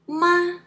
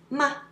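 First: The pitch stays high and level. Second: The syllable is short, light and unstressed. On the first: It means mother. "it means mother. That's first tone. The tone is flat" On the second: It is a question word. "The last one is neutral tone. It's ma. It's a question word"

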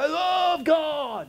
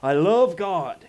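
First: The words are said at a loud volume. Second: The words are said at a normal volume.

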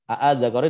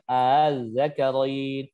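First: The second glottal stop is firm and clear. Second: The second glottal stop is softened and eased. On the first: "asalnya tahqiq tegas" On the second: "dibaca dengan takhfif dengan hamzah musahalah"

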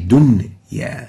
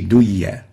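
First: The nun sound is clearly heard before the y. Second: The nun sound is merged into the y. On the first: The speaker calls it right. "we say dunya" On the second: The speaker calls it wrong. "we don't say duya"

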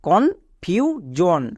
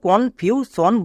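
First: The middle consonant is a voiced 'zh' sound. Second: The middle consonant is a voiceless 'sh' sound. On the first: The speaker calls it right. "S এর জন্য বর্গীয় জ হচ্ছে" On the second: The speaker calls it wrong. "একে আমরা ভুল করেও কনফিউশন বলবো না"

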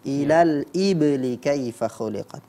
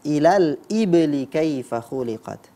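The two takes are said the same way.

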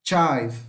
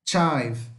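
The two takes are said the same way.

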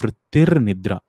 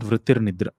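First: The r before nidra gets extra emphasis. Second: The r before nidra is said lightly. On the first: The speaker calls it right. "Here at this rakara, there is an extra emphasis" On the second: The speaker calls it wrong. "It's not vrittir nidra"

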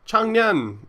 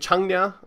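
First: The name ends with an N sound. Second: The name ends without an N sound. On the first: The speaker calls it right. "the name was like Changnyeon" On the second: The speaker calls it wrong. "I forgot the N sound on the end"

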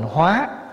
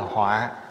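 First: The word is said with a rising tone. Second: The word is said with a heavy tone. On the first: To transform. "nếu bỏ dấu sắc vô là thành hóa" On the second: A calamity. "dấu nặng ở dưới là họa"

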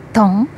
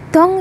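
First: The tone is not high and long. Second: The tone is fairly high and long. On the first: The word means sugar. "Beda dengan dong yang artinya gula" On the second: The word means soup or broth. "diucapkan dengan nada agak tinggi dan panjang"

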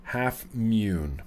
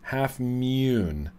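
First: The second word has a long 'oo' vowel. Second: The same.

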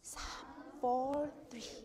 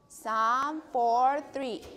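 First: It is said very quietly. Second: It is said at normal volume.

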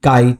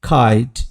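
First: The first sound is an unaspirated k. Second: The first sound is an aspirated k. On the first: The speaker calls it wrong. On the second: The speaker calls it right.

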